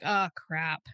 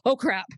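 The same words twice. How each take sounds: First: It is said in a calm, casual tone. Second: It is said in a panicked, alarmed tone. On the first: The situation is routine and manageable. "where you're just kinda like" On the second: The situation feels like a real emergency. "instead of like"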